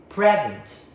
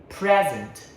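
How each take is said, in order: The two takes are said the same way.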